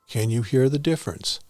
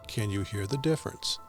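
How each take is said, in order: First: It is recorded at a fairly high fader level. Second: It is recorded at a low fader level. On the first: "Level eight" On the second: "Level six"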